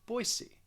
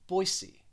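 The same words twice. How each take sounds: First: The middle consonant sounds like an S. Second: The same.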